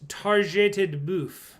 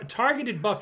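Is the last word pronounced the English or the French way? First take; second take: French; English. First: The last word has a French-style pronunciation. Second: The last word has a plain English pronunciation. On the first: The speaker calls it right. "It's actually a French pronunciation" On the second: The speaker calls it wrong. "You're saying targeted buff wrong"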